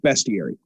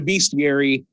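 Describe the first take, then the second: First: The first syllable sounds like 'best'. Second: The first syllable sounds like 'beast'. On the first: This is the standard pronunciation. The speaker calls it right. "the correct pronunciation is bestiary" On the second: This is the speaker's own habitual pronunciation. The speaker calls it wrong. "one of the people that calls it a bestiary"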